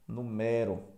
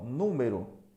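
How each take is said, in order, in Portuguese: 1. A tônica está na segunda sílaba. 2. A tônica está na primeira sílaba. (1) "vira verbo" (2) "Número é um substantivo"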